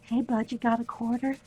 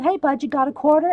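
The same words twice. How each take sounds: First: Soft repeat. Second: Said in the usual way. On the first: Retold or imitated. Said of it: "repeats the line laughing". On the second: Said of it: "I said".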